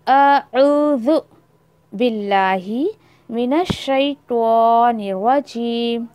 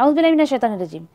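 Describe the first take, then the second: First: Each word is pronounced clearly and carefully. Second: It is rushed and mumbled, hard to understand. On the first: It is recited sincerely, seeking real protection. The speaker calls it right. "Proper एक एक वर्ड को सही प्रोनाउंस करिए" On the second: It is recited carelessly, as a ritual. The speaker calls it wrong. "पढ़ते भी ऐसे कि अगले को समझ ही नहीं आता"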